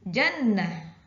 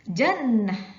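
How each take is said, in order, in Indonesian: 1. Kata ini berakhir dengan bunyi 'ah' yang pendek. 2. Kata ini berakhir dengan bunyi 'ah' yang pendek.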